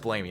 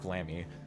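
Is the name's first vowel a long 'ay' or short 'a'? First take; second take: long ay; short a. First: The first vowel is a long 'ay' sound. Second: The first vowel is a short 'a' sound. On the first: The speaker calls it right. "Technically, it's pronounced Blamey" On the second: The speaker calls it wrong. "not Blammy"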